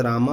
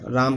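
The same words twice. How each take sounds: First: राम with a visarga ending, an added breath after the final a; विसर्ग का उच्चारण. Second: Said in the usual way. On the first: Shown as a demonstration. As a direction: end राम on a voiced h echo, like "raa-maha". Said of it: "विसर्ग लगा दिया तो राम". (राम के अंत में विसर्ग लगाकर) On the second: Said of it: "राम के बाद विसर्ग लगा दिया".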